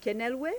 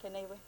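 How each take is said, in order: First: "Kenelwe" raised in pitch, rising like a question; tentative pronunciation. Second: "Kenelwe" softly, with the l barely sounded; corrected pronunciation. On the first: Host calling a delegate's unfamiliar name, questioning "Kenelwe". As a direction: try "Kenelwe" with the l sounded, checking it. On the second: Host echoing the delegate's own pronunciation, soft settled "Kenelwe". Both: Real, not acted. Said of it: "How do you pronounce your name?".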